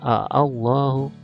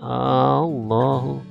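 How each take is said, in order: First: It starts with two separate short a vowels. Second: It starts with one drawn-out long a vowel. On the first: "sebenarnya a Allahu" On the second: "tapi dibacanya Allahu"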